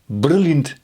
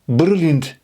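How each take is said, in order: First: The consonants are hard and prominent. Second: The consonants are hard and prominent.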